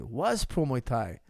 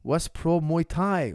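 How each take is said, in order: First: Said in the usual way. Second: Louder and slow, every word weighted; slow, stressed reading of "Was pro Muay Thai"; slow emphatic read. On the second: Shown as a demonstration. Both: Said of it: "question mark".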